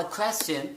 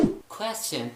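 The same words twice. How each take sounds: First: क्वेश्चन with kh onset; aspirated k. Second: Said in the usual way. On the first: Shown as a demonstration. Teacher modelling aspirated क्वेश्चन. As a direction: puff the k of क्वेश्चन. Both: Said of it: "आपने क्यू को ख का sound देना है".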